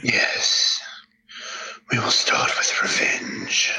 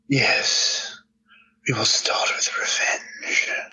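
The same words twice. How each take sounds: First: The Darth Maul voice is rougher and more gravelly. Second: The Darth Maul voice has little gravel.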